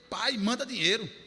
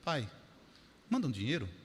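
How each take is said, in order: First: It is read in a harsh, demanding tone. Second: It is read in a soft, pleading tone.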